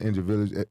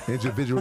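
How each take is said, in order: First: "individual" stumbled, syllables slurred; stumbled word. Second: Said in the usual way. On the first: Real, not acted. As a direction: trip over "individual". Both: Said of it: "Say the word".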